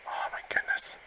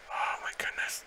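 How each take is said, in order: First: High breathy squeak; squeaky whisper. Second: Hushed, breathless awe; whisper. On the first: As the Gardevoir falls, squeaky whispered disbelief. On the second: As the battle gets tight, hushed whispered awe. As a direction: barely breathe the words. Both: Real, not acted.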